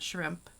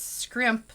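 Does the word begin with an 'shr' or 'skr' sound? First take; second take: shr; skr. First: The word begins with an 'shr' sound. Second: The word begins with an 'skr' sound. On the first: "not shrimp" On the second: "like S K R I M P"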